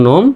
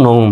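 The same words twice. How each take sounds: First: নোম with a single pure o; common mispronunciation. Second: নৌম with an "ou" glide; correct pronunciation. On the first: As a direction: say নোম without any glide. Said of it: "অনেকে উচ্চারণ করে". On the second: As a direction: model নৌম as "noum". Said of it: "সঠিক উচ্চারণটা হলো". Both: Shown as a demonstration.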